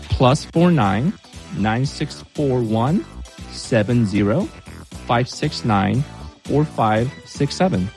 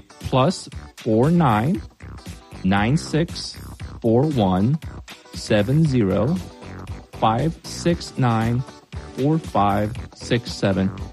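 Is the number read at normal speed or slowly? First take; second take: normal; slowly. First: The number is read at normal speed. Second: The number is read more slowly.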